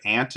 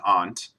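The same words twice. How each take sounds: First: "aunt" said like "ant"; short front A in "aunt"; first pronunciation of aunt. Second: "aunt" said as "ahnt"; broad back A in "aunt"; second pronunciation of aunt. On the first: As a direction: say "aunt" to rhyme with "pant". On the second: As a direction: say "aunt" with an open AH vowel. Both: Shown as a demonstration. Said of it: "I say this actually two different ways".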